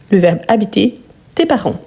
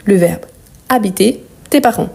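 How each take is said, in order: Both takes have the same delivery.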